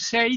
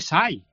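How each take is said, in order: First: The vowel is a closed E sound. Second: The vowel is opened so it sounds like A. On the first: "en vez de decir SEI" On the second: "abre tanto la E al pronunciar que parece una A"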